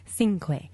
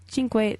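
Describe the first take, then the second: First: The first syllable does not sound like 'chink'. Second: The first syllable sounds like 'chink'. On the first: This is the changed brand way. The speaker calls it wrong. "they have to say cinque" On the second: This is the original Italian way. The speaker calls it right. "instead of cinque"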